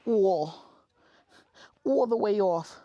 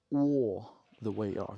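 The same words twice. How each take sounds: First: Put-on high, loud Rosie Perez accent; big, high-pitched impression with a Rosie Perez accent. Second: Lightly voiced Rosie Perez accent, drawn out; slow, a hint of Rosie Perez accent. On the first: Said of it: "Rosie Perez". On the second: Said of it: "the Lisa Perez accent".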